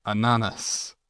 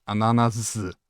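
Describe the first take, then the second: First: Said in the usual way. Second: Ananas ending in a buzzing z sound. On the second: Shown as a demonstration. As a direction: say ananas with a final z, not s. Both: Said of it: "With a Z at the end".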